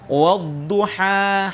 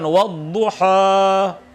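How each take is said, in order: First: The final long a is light and thin. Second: The final long a is heavy and thick. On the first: The speaker calls it right. "ha tipis" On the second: The speaker calls it wrong.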